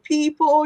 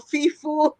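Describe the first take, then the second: First: The word is said with p sounds. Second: The word is said with f sounds. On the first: "instead of saying people" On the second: "you mix up the P's and the F's together"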